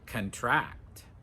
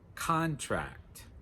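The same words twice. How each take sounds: First: The stress is on the second syllable. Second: The stress is on the first syllable. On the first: It is a verb meaning to catch a disease. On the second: It is a noun meaning a written agreement.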